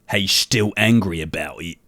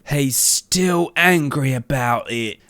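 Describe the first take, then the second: First: The voice is deep and low. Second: The voice is softer and higher. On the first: The speaker calls it wrong. "It's a little bit too um deep" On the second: The speaker calls it right. "a softer, like, higher voice"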